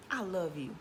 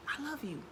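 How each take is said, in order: First: Said in the usual way. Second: Softer, heartfelt I love you; meant sincerely. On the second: Shown as a demonstration. Telling herself in the mirror, softer and sincere. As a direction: say I love you like you really mean it. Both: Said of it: "say it like you mean it".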